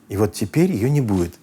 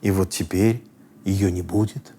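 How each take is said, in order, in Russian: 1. Конец фразы понижается. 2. Конец фразы повисает. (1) "И все, неинтересно, не летит никуда" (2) "Видите, точки нет"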